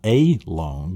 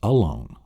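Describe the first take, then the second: First: The first vowel is a full, strong vowel. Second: The first vowel is a weak uh sound. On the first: The speaker calls it wrong. "So it's not a lone" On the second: The speaker calls it right. "It's alone"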